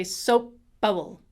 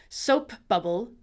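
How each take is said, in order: First: Soap bubble with the p held into the b, no gap; implosion. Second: Soap bubble with a little uh between p and b; schwa between words. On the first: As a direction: close on the p and open straight into bubble. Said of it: "or we can say". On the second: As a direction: release the p into a schwa, then bubble. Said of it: "put a schwa in the middle". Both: Shown as a demonstration.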